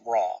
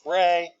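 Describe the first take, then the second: First: The vowel sounds like 'ah'. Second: The vowel sounds like 'ay'. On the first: "sometimes it's pronounced Ra" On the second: "Sometimes it's pronounced Re"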